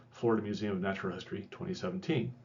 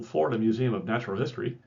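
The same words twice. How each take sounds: First: Quick, softer throwaway citation read; tossed-off afterthought. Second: "Florida Museum of Natural History" said up front with weight, quick but clear; source emphasized. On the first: Teacher reading the source as a quiet afterthought. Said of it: "is a bit of an afterthought". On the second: Teacher giving the source its weight at the front. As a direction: put the source forward so it is remembered. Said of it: "it's emphasizing the source". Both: Shown as a demonstration.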